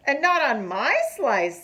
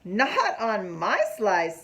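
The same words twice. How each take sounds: First: Lightly voiced turtle, a touch higher and louder; Matthew the turtle. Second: Slow, lightly voiced beaver; Max the beaver. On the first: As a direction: stress NOT, a bit higher than the beaver. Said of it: "says Matthew the turtle". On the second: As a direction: lean on NOT, drawn out. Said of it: "says Max the beaver". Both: A narrator's reading.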